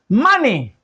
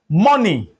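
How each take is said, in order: First: The first vowel is an open 'ah' sound. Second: The first vowel is not an 'ah' sound. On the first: The speaker calls it right. "this is called money" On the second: The speaker calls it wrong. "not money"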